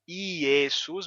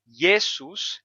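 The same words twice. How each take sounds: First: Iesus said with an ee-vowel start, ee-eh-soos; old Iesus pronunciation. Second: Jesus said very slowly, J as a consonant and S as Z. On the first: Teacher contrasting the old Latin form for students, vowel-initial Iesus. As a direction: Iesus begins with a clear I vowel glide. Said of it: "não mais Iesus". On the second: Teacher showing students the newer Latin form, slow drawn-out Jesus. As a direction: stretch out Jesus, consonant start, Z in the middle. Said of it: "mas Jesus". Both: Shown as a demonstration.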